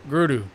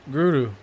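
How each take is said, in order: The two takes are said the same way.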